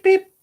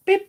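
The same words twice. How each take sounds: First: Very high, loud squeaky beep; mock beep. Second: Said in the usual way. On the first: Keith going beep, imitated.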